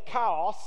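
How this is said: It is said with a French accent, like cows. The speaker calls it wrong. "He says chaos"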